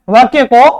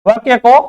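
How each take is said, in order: Both takes have the same delivery.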